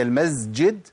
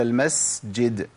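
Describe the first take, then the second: First: First المسجد slowly as "al-mazjid"; wrong voiced sīn in المسجد; mistaken z. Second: المسجد slowly as "al-masjid"; breathy running s. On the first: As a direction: buzz a z before the j in المسجد. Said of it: "هي المسجد ولا المسجد؟". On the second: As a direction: let breath hiss through the s of المسجد before the j. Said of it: "أنا قلتها مشيت نفس". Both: Shown as a demonstration.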